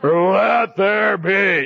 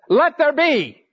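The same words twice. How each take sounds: First: It is said in a deep, God-like voice. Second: It is said in his ordinary voice.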